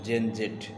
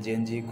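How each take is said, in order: First: The final letter sounds like 'zed'. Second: The final letter sounds like 'zee'. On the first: "বিটি অ্যাকসেন্টে" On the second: "American অ্যাকসেন্টে জেডকে আসলে জি এর মতো উচ্চারণ করা হয়"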